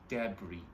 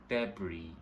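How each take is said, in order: Both takes have the same delivery.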